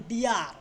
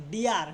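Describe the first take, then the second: No difference in how they are said.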